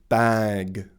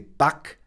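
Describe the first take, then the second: First: It is pronounced with standard English sounds. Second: It is pronounced following German sound rules. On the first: The speaker calls it right. "instead of bag" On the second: The speaker calls it wrong. "They say back instead of"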